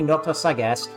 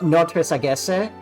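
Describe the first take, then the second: First: It is said with a French accent. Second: It is said with an Italian accent.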